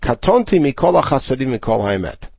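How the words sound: The first word runs straight into the next. "a word that barely stops and moves straight to the next phrase"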